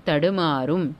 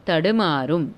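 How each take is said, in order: Both takes have the same delivery.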